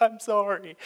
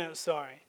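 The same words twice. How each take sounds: First: Casual Canadian sorry. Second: Softer, grudging mumbled sorry; insincere sorry. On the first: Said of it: "We're like". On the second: Sulky child mumbling sorry to get out of trouble. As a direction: say "I'm sorry" under your breath, not meaning it. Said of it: "a not real sorry". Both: Retold or imitated.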